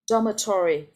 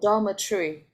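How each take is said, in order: First: It is said with an American English pronunciation. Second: It is said with a British English pronunciation. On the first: "That's American English" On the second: "That's British English"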